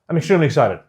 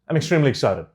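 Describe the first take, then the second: First: The words are mumbled and run together. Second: The words are mumbled and run together.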